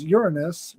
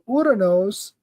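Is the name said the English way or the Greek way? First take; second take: English; Greek. First: The name is said with the English pronunciation. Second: The name is said with the Greek pronunciation. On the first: "it sounds ridiculous when you say Uranus" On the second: "I just use the Greek pronunciation"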